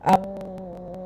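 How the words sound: The nose is pinched, muffling the m sound. The speaker calls it wrong. "മൂക്ക് പൊത്തിയിട്ട് അമ്മ complete ആവില്ല"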